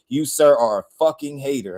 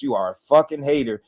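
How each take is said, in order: First: Firm callout with weight on sir; said with my chest. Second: Firm repeat, weight landing on hater; said with my chest. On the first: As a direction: lean into sir, then drop the line down. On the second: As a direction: drive it home on hater with a falling finish. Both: Real, not acted. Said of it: "I gotta say it with my chest".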